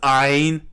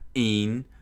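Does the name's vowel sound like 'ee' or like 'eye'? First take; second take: eye; ee. First: The vowel sounds like 'eye'. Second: The vowel sounds like 'ee'. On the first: The speaker calls it right. "it's Ein, not Een. ... short for Einstein" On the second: The speaker calls it wrong. "not Een"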